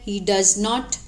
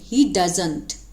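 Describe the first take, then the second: First: Does and not are said as two full words. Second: Does and not are run together as doesn't. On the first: This is how new learners speak. "जो नए नए सीखते हैं वो बोलते हैं डज नॉट" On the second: This is how fluent speakers speak. "जब हम फ्लुएंट इंग्लिश बोलना चाहते हैं तो हम इसको ऐसे बोलेंगे"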